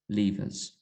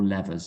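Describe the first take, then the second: First: It is said in a non-American way. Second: It is said in an American way.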